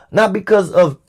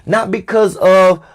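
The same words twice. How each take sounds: The two takes are said the same way.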